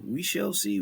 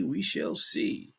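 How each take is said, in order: First: Said in the usual way. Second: Slow, teasing whisper. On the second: Shown as a demonstration. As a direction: breathe it slowly, mysterious. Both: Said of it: "repeated take".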